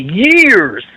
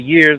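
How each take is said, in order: First: The final S sound is long and drawn out. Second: The final S sound is short and ordinary. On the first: Another person says it this way. "he put the emphasis on it, man. He let that motor run" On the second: This is how the speaker's group says it. "we say years and all that"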